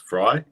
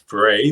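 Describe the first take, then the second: First: The name rhymes with 'dry'. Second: The name rhymes with 'day'. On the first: The speaker calls it right. "I do now believe it is Fry" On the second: The speaker calls it wrong. "I think I sort of pronounce his name as Frey"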